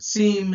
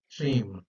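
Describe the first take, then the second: First: The word is said the modern way. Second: The word is said the ancient way. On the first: "in uh, the more modern pronunciation" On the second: "two thousand years ago that was pronounced seem"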